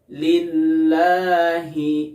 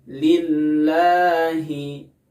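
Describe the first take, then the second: No difference in how they are said.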